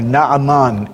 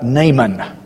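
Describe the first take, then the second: First: The name is pronounced the Hebrew way. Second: The name is pronounced the usual English way.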